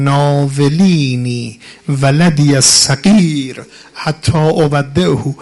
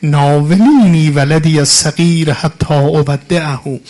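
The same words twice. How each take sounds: First: Slow, drawn-out mournful chant of ناولینی ولدی الصغیر; chanted, stretch every word as a lament; chanted Arabic lament. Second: Chanted, ناولینی ولدی الصغیر cried out louder; chanted, repeat the plea with more force; louder chanted Arabic lament. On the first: Quoting the imam's farewell. (chanted, خواندن آهسته و کشیده) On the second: Repeats the farewell line. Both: Acted.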